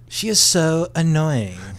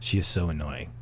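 First: It is said in a Valley girl voice. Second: It is said in a plain guy voice.

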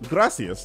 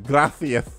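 First: The 'ci' is said with a plain s sound. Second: The 'ci' is said with a lisped th sound. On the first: "which is like Mexican Spanish" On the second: "Spain Spanish is gracias"

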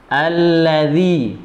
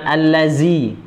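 First: The last consonant is made with tongue against teeth. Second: The last consonant is a plain z sound. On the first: The speaker calls it right. "lidahnya ditempelkan di gigi atas bagian dalam" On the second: The speaker calls it wrong. "bukan allazi, tidak ada allazi"

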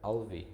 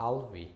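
Both takes have the same delivery.

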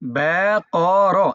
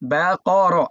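First: The syllables are said slowly and separately. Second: The syllables are said somewhat faster. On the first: "আবার বলি" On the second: "একটু দ্রুত বলেন"

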